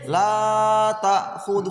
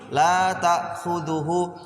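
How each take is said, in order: First: The vowel in 'la' is drawn out very long. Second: The vowel in 'la' is held briefly. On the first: The speaker calls it wrong. "sepanjang sekali" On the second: The speaker calls it right. "kan cuma dua harokat ... harusnya begitu"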